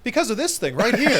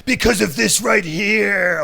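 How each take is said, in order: First: Pro wrestler voice. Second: Slow, booming wrestling promo growl; pro wrestler voice. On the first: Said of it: "That's a pro wrestler voice". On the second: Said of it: "Oh, what kind of voice was that?". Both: Acted.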